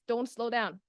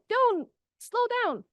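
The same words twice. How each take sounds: First: It is said without a pause after "don't". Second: There is a pause after "don't".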